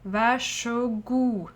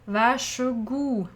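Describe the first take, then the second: No difference in how they are said.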